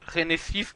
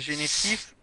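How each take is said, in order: First: The name is pronounced the English way. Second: The name is pronounced the French way.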